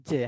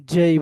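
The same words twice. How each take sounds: First: জে short, without the "ay" glide; wrong local J. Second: জেই with "j" and a gliding "ay"; corrected English J. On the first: Teacher warns class against this J, local pronunciation. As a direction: show জে as the clipped wrong form. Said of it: "যাবে না". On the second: Teacher shows how to say J, corrected pronunciation. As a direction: say জেই firmly as "jay". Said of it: "এটাকে কি বলতে হবে". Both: Shown as a demonstration.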